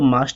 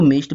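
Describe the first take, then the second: First: It is said with a UK accent vowel. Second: It is said with a US accent vowel.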